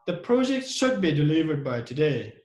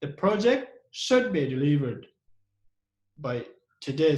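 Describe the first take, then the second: First: Said in the usual way. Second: "should" set off and stressed, pause before "by today". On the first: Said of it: "This is only passive voice". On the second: Shown as a demonstration. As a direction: lean on the word "should". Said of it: "here we use should as a model to show emphasis".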